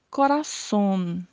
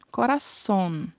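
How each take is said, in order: The two takes are said the same way.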